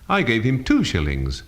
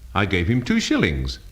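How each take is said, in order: First: The stress falls on the word two. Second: The stress falls on the word shillings. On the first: The amount was two, not ten. "not ten" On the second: The coins were shillings, not pounds. "not pounds"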